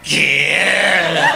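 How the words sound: It sounds drunk and slurred.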